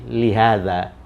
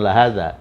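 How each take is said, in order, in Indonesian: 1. Vokal pertama adalah i. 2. Vokal pertama adalah a. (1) "dia berharokat kasrah" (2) "Jadi li bukan la hadza"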